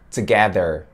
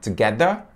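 First: It is said with an American accent. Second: It is said with a British accent. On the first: "diferente da pronúncia de um americano, que seria together" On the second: "acho muito legal a pronúncia do inglês britânico"

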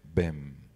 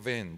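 First: It is said in a deep radio-announcer voice. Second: It is said in a normal speaking voice.

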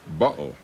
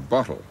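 First: It is said with a Cockney pronunciation. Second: It is said with a standard pronunciation. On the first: "Cockney influence ... they don't say bottle" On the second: "for bottle"

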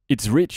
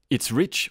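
First: The voice is very close with heavy, boomy low end. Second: The voice is at a normal distance with less low end. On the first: "this time I'm going to get really close" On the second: "Rode themselves on their website state, and I quote"

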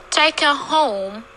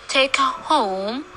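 Both takes have the same delivery.

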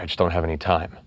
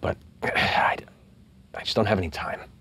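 First: It is read through plainly, without much feeling. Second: It is acted with feeling, like a living character. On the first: The speaker calls it wrong. "reading a line" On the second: The speaker calls it right. "Or going"

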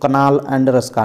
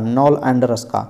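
First: The K at the start is pronounced. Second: The K at the start is silent. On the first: The speaker calls it wrong. "ऐसा नहीं पढ़ेंगे" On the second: The speaker calls it right. "के यहाँ silent होता है"

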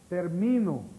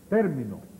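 First: The stress is on the middle syllable. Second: The stress is on the first syllable. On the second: "Esdrújula"

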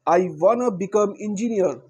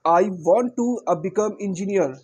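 First: 'Want to' is reduced to a short 'wanna'. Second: 'Want to' is said as two full words.

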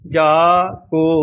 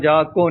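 First: The two words are said with a break. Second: The two words run together as one. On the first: The speaker calls it right. "ਵਾਕ ਵਾਕ ਬੋਲਣਾ ਹੈ" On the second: The speaker calls it wrong. "ਇਕੱਠਾ ਨਹੀਂ ਬੋਲਣਾ। ਜਾ ਕੋ ਨਹੀਂ ਬੋਲਣਾ।"

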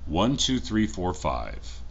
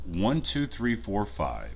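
First: The recording level is set to 100 percent. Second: The recording level is set to 90 percent. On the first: "Now this is with audio set up to 100%" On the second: "So this is at 90% audio"

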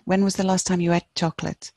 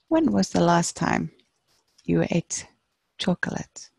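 First: It is said quickly with 'ate' reduced to 'et'. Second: It is said at normal speed with 'ate' as 'eight'.

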